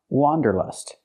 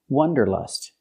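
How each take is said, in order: First: The first vowel is an open ah sound. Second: The first vowel is a short uh sound. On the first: The speaker calls it right. "It's pronounced wanderlust. ... has the sound ah, like hot and stop. It's an open sound" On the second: The speaker calls it wrong. "The word is not pronounced wanderlust. ... We cannot use the short uh sound like cup and up"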